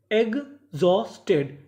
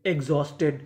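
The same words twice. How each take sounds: First: exhausted split slowly as egg-Jos-Ted; slow teaching breakdown of exhausted; syllable by syllable. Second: Said in the usual way. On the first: Shown as a demonstration. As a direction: pause between the three chunks of exhausted. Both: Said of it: "टुकड़ों में तोड़ तोड़ के पढ़ें".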